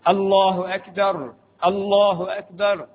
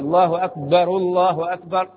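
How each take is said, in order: First: The first akbar ends on a stopped r sound. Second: The first akbar ends in a linking u vowel. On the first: "بتسكين" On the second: "بضم الرأس الأولى"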